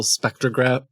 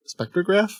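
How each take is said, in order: First: Said in the usual way. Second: Spectrograph? rising high at the end, doubting the word; unsure question. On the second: Real, not acted. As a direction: ask spectrograph? as if unsure it's right. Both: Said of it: "Is that the word?".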